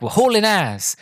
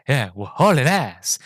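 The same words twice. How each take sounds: First: Lightly voiced driver, higher pitched; a higher, lightly acted exclamation; driver's boast. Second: Slow, drawn-out echo in a put-on voice; Enrico. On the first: Driver telling his passenger they're speeding, lightly acted boast. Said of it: "he's like, um". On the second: Innocent passenger repeating the driver's phrase, slow character voice. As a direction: mimic the naive passenger, stretching the words. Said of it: "Rowan Atkin's character's like".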